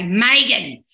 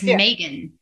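First: The name is said in an Australian accent. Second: The name is said in an American accent. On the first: "if I used an Australian accent, I'd say Megan" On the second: "I can't say Megan in the correct pronunciation without using an American accent"

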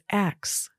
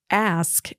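First: The k sound comes before the s. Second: The s sound comes before the k. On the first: "as X" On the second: "the word ask"

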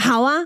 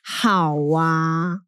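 First: It sounds direct and willing. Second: It sounds hesitant and reluctant.

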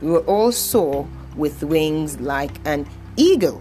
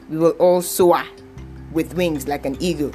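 First: 'Soar' ends in the 'or' sound. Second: 'Soar' ends in a vowel other than 'or'. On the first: The speaker calls it right. "That's the right way to say it" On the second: The speaker calls it wrong. "stop saying"

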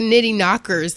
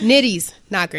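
First: The s sound comes at the very end. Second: The s sound comes after the first word. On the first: The speaker calls it wrong. "everybody's like nitty knockers" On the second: The speaker calls it right. "There's no S at the end"

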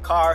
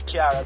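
First: The word is said in a standard accent. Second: The word is said in a Jamaican accent. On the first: "car here" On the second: "We call it Kiara Jamaica"

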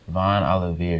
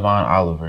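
First: The name ends with a 'vee-ay' sound. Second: The name ends with a 'ver' sound. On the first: The speaker calls it right. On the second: The speaker calls it wrong. "So not Von Oliver"

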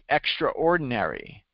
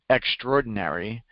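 First: It is said as separate parts, extra-ordinary. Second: It is said reduced, with syllables run together.

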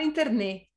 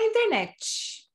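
First: It is said with a Spanish accent. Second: It is said with a Brazilian Portuguese accent.

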